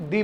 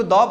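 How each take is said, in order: First: "दी" with a long ee vowel; "दी" pronunciation. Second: "द" with an open aw-like vowel; "द" pronunciation. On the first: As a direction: say "दी" as dee, not daw. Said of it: "या फिर दी पढ़ सकते हैं". ("दी" को लंबी ई से बोलें) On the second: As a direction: say "द" as daw, not dee. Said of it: "या तो इसको द पढ़ सकते हैं". ("द" को दॉ जैसा बोलें) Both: Shown as a demonstration.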